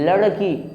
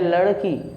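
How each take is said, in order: The two takes are said the same way.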